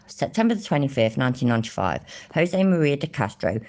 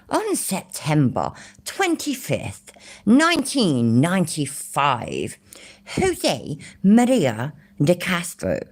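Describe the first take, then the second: First: Said in the usual way. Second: Slow, mock-posh British reading. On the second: British streamer reading a court record aloud, mock posh voice. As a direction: put on a posh British accent, drawn out. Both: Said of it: "shall I try and do a posh voice".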